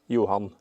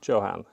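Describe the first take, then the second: First: The name is said with Norwegian pronunciation. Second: The name is said with English pronunciation.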